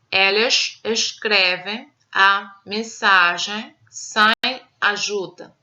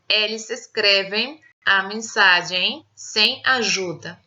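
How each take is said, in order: First: It is read in a European Portuguese accent. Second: It is read in a Brazilian Portuguese accent. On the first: "Leitura na variante europeia" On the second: "Leitura na variante brasileira"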